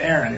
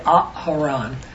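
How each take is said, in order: First: The name is said with two syllables. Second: The name is said with three syllables. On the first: This is the familiar pronunciation of the name. "instead of Aaron, instead of two syllables" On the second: This is the original pronunciation of the name. "His name is really Aharon. ... it's three syllables"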